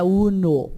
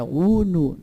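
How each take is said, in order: First: Uno with the final o reduced to a Brazilian u; wrong pronunciation. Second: Uno with a full clear o, not reduced to u; right pronunciation. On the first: Teacher showing the wrong uno to avoid. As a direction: say uno the Portuguese way, ending in u. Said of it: "não é uno". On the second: Teacher showing the correct uno, lower. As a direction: say uno ending in a pure o. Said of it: "é uno". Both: Shown as a demonstration.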